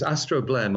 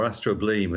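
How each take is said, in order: First: Astroblem with a short "blem" at the end; short-vowel ending. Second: Astrobleem with a long "bleem" at the end; long-vowel ending. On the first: Astronomer offering either pronunciation, Astroblem with short e. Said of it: "I think you pronounce it as, as you like". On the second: Astronomer offering the spelled look, astrobleem with long ee. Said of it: "as it looks to us". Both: Shown as a demonstration.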